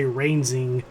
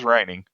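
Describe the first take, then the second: First: "reinsing" with a z sound, reinz-ing; reinsing slip. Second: "reigning" said with a hard ng, reign-ing. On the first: Retold or imitated. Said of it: "he did say reinsing". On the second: Shown as a demonstration. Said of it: "He says reigning".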